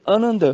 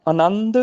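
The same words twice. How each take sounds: First: ਆਨੰਦ said "a-nand", short light nasal second syllable; with bindi. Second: ਆਨੰਦ said "a-naand", second syllable held; with tippi. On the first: Teacher shows the difference, ਆਨੰਦ as short "anand". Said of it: "ਨੰਨੇ ਤੇ ਬਿੰਦੀ ਲੱਗ ਜਾਣੀ". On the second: Teacher shows the difference, ਆਨੰਦ as long "anannd". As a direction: lengthen the nasal in ਆਨੰਦ. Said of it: "ਇਹ ਫਰਕ ਹੈਗਾ". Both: Shown as a demonstration.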